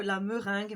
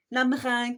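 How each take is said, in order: First: Said in the usual way. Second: "La meringue" repeated much louder, mocking her own way of saying "meringue"; her own regional pronunciation. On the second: Shown as a demonstration. Crafter to her viewers, loudly repeating "meringue" the way her accent says it. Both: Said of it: "comme je dis".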